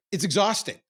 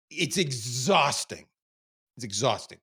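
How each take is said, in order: First: Raised and louder, insisting; exhausting, emphatic. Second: Drawn-out, slowed way down; slow weary repeat. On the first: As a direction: push the word out hard. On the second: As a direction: let it drag out of you. Weary repeat of the same words. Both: Real, not acted.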